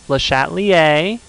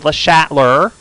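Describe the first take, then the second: First: The name is pronounced in a French way. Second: The name is pronounced in an anglicized way. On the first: The speaker calls it right. "make sure we're giving it the proper enunciation" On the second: The speaker calls it wrong. "We're not going to say"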